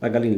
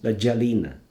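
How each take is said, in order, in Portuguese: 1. A palavra começa com som de g forte. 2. A palavra começa com som de j suave. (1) "ele não diz la galina" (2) "ele diz la gialina"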